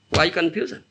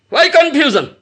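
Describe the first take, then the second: First: Said in the usual way. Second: Repeated louder and higher, pressing; emphatic repeat. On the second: Shown as a demonstration. Preacher pressing the hall on confusion, louder. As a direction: press the question home to the audience.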